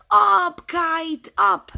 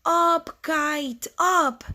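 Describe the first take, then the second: First: High, loud burst on the first word; loud cheer to the kite; storybook shout. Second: High, controlled call; storybook shout. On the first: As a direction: shout it in separate, punched words. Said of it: "And then he shouted". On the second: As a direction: call upward in separate high words. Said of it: "and shout". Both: Acted.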